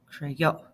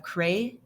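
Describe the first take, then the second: First: "creyó" as cre-YO, in one piece; I becomes Y. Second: "creyó" broken as cre, long pause, i-o; regular wrong form. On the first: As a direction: say "creyó" with a Y glide and no pause. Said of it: "the I gets shy". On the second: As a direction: say "creyó" in pieces with a full I vowel. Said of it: "normally you would have". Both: Shown as a demonstration.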